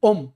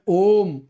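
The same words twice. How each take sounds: First: The O vowel is held very briefly. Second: The O vowel is held for twice as long. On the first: "तो ये लघु उच्चारण है।" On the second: "ये दीर्घ उच्चारण है।"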